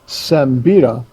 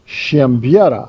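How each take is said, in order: First: The surname is said with English pronunciation. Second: The surname is said with Polish pronunciation. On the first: "So we've gone with Sembira for most of our life" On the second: "in Polish, my name is pronounced"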